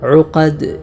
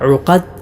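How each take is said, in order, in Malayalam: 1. അവസാനത്തെ ദാൽ പ്രതിധ്വനിയോടെ ഒരു കുതിപ്പായി അവസാനിക്കുന്നു. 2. അവസാനത്തെ ദാൽ കുതിപ്പില്ലാതെ പെട്ടെന്ന് നിൽക്കുന്നു. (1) "ദാലിൽ ഖൽഖല കൊടുത്തുകൊണ്ട് ഉഖദ് ഉഖദ് ഇങ്ങനെയാണ് ഓതേണ്ടത്" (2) "അല്ലാതെ ഉഖദ് എന്നല്ല"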